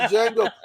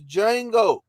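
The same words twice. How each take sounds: First: The name starts with a D sound. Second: The name starts with a J sound. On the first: The speaker calls it wrong. "putting the D in your mouth though and saying the" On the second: The speaker calls it right. "Quentin Tarantino done told you that it's Django"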